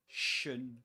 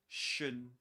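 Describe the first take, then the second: Both takes have the same delivery.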